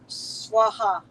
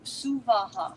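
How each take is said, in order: First: The word is said as two syllables. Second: The word is said as three distinct syllables. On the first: The speaker calls it wrong. "you will hear Swaha a lot" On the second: The speaker calls it right. "three separate distinct syllables"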